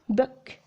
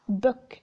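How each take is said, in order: First: The vowel in the word is short. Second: The same.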